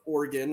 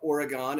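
First: It is said with the local pronunciation. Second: It is said with an out-of-state pronunciation.

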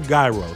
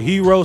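First: The word starts neither like hero nor euro. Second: The word starts with an h sound, like hero. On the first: This is how the speaker says it. "I pronounce it gyro" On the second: Some people say it this way. "some of y'all pronounce it hero"

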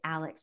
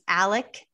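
First: The name ends with a ks sound. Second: The name ends with a plain k sound. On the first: The speaker calls it wrong. "Anybody who pronounces it Alex is incorrect" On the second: The speaker calls it right. "it's Alec"

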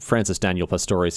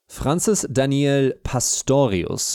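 First: The name is said with an English accent. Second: The name is said with a German accent. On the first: "dispense with a pretentious German accent" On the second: "a pretentious German accent"

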